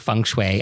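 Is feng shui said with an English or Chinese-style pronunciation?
English. It is said with a plain English pronunciation. The speaker calls it right. "like your feng shui at home"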